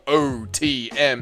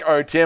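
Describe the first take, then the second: First: Each letter is said clearly and strongly. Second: The letters run together, sounding like two words. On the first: The speaker calls it right. "a nice strong O T M so you can hear the difference" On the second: The speaker calls it wrong. "it sounds like"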